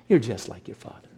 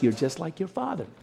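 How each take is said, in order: First: It is said in a harsh, unkind tone. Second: It is said in a warm, nice tone.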